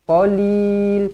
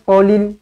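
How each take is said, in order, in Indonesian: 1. Vokal pada suku kata terakhir dipanjangkan. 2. Vokal pada suku kata terakhir pendek. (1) "panjangkan di sini" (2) "jangan qalil, qalil tak nak"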